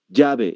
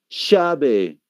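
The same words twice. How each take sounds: First: It is said in a Peruvian Spanish accent. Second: It is said in an Argentine Spanish accent. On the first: "llave es como dicen" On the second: "El argentino no va a decir llave, ¿qué va a decir?"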